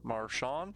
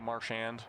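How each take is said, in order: First: The name is pronounced in a French way. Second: The name is pronounced in an English way. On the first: "More French way to say it" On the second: "he just officially declared it's now Marchand"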